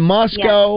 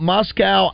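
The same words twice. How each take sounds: First: Moscow said as MOS-koh; Moscow ending in -co. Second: Moscow said as MOS-kow; Moscow ending in -cow. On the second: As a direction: rhyme the end of Moscow with "now". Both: Real, not acted. Two pronunciations of the town.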